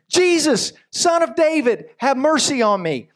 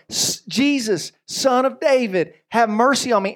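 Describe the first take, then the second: First: High, raised call for mercy. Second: Crying out all the more. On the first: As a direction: call out across the crowd. Blind beggar calling out to Jesus. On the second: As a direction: stretch each word out, pleading harder. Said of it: "he cried out all the more". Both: Acted.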